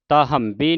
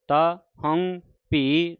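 First: The sounds are run together into one word. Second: Each sound is kept clearly separate. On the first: The speaker calls it wrong. "ਤਾ ਹੰਬੀ ਨਹੀਂ ਕਹਿ ਦੇਣਾ" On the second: The speaker calls it right. "ਤੇ ਤੱਤਾ ਵੱਖਰਾ ਹੈ, ਹਾਹਾ ਵੱਖਰਾ ਹੈ, ਭੱਬਾ ਹੀ ਵੱਖਰਾ ਹੈ"

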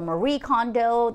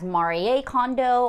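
First: The name is said with a Western-style pronunciation. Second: The name is said with a Japanese-style pronunciation.

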